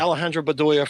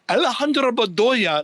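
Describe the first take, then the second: First: The name is said with a plain American accent. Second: The name is said with an exaggerated Spanish accent. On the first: The player is from New Jersey. "Alejandro Bedoya from New Jersey" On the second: It treats the player as if from Colombia. "like he thought he was from Colombia"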